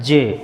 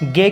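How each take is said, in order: First: The syllable starts with a j sound. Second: The syllable starts with a g sound. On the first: The speaker calls it right. "इसका सही उच्चारण क्या होता है?" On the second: The speaker calls it wrong. "बोलने में अपन गे बोलते हैं इसको"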